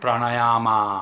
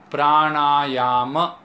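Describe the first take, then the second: First: The final vowel is long and drawn out. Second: The final vowel is short and clipped. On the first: The speaker calls it wrong. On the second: The speaker calls it right.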